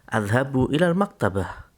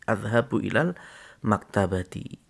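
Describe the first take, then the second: First: The last word ends in 'ah', no case vowel. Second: The last word ends in 'ati' with a case vowel.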